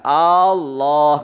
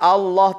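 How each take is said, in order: First: The opening vowel is drawn out long. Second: The opening vowel is kept short. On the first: The speaker calls it wrong. "yang salah Allahnya dipanjangkan Allah gitu" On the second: The speaker calls it right. "Allahnya sudah benar"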